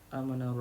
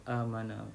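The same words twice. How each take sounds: No difference in how they are said.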